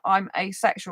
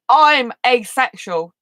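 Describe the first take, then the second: First: It is said quietly and timidly. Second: It is said loudly and confidently. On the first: The speaker is afraid to share this. The speaker calls it wrong. "instead of saying I'm asexual like this" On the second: The speaker is at ease sharing this. The speaker calls it right. "you should talk loud, clear, and be the opposite of what you're feeling"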